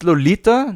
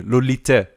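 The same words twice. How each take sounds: First: "Lolita" ending in an open A; usual title pronunciation. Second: "Lolite" ending in an eh sound; pronounced with final E. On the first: Checking the usual film title, "Lolita" said with a final A. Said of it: "but it is with an E here". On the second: Reading out the Italian title, "Lolite" with a final E. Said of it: "it is with an E here". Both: Shown as a demonstration.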